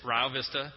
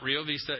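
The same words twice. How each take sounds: First: The name is said the local way. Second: The name is said the usual non-local way. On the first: The speaker calls it right. "it's Rio Vista" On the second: The speaker calls it wrong. "it's not Rio Vista"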